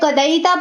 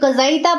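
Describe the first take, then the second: First: The middle consonant is a d sound. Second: The middle consonant is a z sound. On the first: "कोई कदाईता पढ़ता है तो वो भी ठीक पढ़ता है" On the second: "अगर कोई कज़ाईता पढ़ता है तो वो भी ठीक पढ़ता है"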